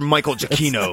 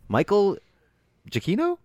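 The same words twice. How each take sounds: First: It sounds firm and confident, without hesitation. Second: It sounds unsure, with a questioning rise. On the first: The speaker claims to know the name for sure. The speaker calls it right. "If you say it with more conviction" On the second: The speaker doubts this is the right name. The speaker calls it wrong. "we're going to leave it with a question mark. Like, is that his name?"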